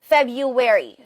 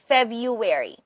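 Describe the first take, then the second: First: The first r is dropped, with a w-like glide. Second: The first r is dropped, with a w-like glide.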